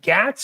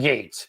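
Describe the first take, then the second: First: The vowel is short, as in 'cat'. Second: The vowel is long, as in 'gate'. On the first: "Is that just a Tony accent thing that he's calling him Gats?" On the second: "I think it's Gates"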